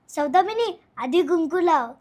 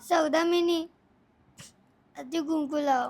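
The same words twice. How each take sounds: First: It is said while laughing. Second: It is said while crying.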